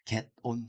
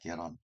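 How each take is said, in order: First: The two words are said separately. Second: The two words run together as one. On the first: The speaker calls it wrong. "get on 형태가 아니라" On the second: The speaker calls it right. "빨리 붙이면 get on이 됩니다"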